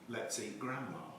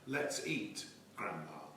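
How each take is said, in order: First: There is no pause before Grandma. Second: There is a pause before Grandma.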